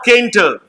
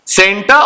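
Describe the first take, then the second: First: The word begins with a k sound. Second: The word begins with an s sound. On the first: The speaker calls it wrong. "केंटर नहीं पढ़ेंगे" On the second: The speaker calls it right. "इसीलिए हम इसे सेंटर पढ़ेंगे"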